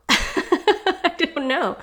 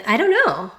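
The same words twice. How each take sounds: First: Slow, high laughing repeat. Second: Said in the usual way. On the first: Real, not acted. Host laughing after reading the passage, bemused.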